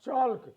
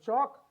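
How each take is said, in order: First: The L sound is pronounced in the word. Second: The L sound is left out of the word. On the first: The speaker calls it wrong. "it is not chalk" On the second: The speaker calls it right. "L as the silent letter"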